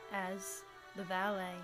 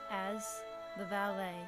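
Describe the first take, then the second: No difference in how they are said.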